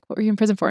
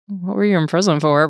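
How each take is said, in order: First: It is said quietly, under the breath. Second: It is said at normal volume.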